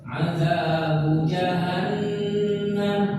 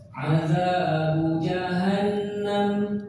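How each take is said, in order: No difference in how they are said.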